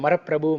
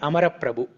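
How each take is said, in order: First: The name begins with an M sound. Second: The name begins with an A vowel. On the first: The speaker calls it wrong. "which is incorrect" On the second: The speaker calls it right. "The correct name is Amaraprabhu"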